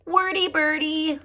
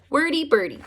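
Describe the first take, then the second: First: Wordy Birdie announced higher; title announcement. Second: Wordy Birdie read out with a falling close; title read. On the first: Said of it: "premiere my read". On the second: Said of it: "Here we go". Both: Shown as a demonstration.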